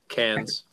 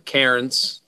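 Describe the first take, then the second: First: It is pronounced in an Australian way. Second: It is pronounced in a typical English way. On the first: "for anybody who understands Aussie" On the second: "for those who might pronounce it in the in the typical English language"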